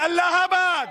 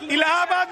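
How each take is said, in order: First: The name starts with an 'a' vowel. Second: The name starts with an 'i' vowel. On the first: The speaker calls it right. "अगर ठीक से pronounce करेंगे तो अल्लाहाबाद होता है" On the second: The speaker calls it wrong. "इलाहाबाद नहीं"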